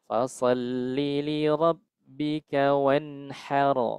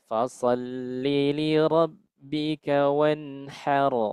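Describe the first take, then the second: Both takes have the same delivery.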